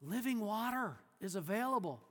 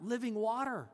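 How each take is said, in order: First: Said in the usual way. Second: "Living water?" scoffed, "Living" leaned on; mock disbelief on "Living water?"; incredulous. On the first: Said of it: "When she hears". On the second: The woman repeats Jesus's words, scoffing. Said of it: "she's very sarcastic here".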